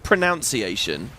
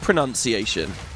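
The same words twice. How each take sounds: First: The second syllable sounds like 'noun'. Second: The second syllable sounds like 'nun'. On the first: The speaker calls it right. "It clearly should be pronunciation" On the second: The speaker calls it wrong. "some words are just traps"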